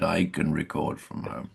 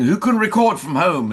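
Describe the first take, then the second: First: Quiet, smug, self-pleased offer. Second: High, loud call to the whole room. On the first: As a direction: say it pleased with yourself. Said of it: "this smug little hand went up". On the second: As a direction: call out the question to everyone. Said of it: "producers were saying". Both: Retold or imitated.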